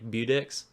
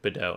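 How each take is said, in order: First: The name is read out English-style, as spelled. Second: The name is given a French-style pronunciation. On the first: The speaker calls it wrong. "did anyone as they were a kid pronounce that like Budex?" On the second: The speaker calls it right. "it was probably French and pronounced like Bedeau"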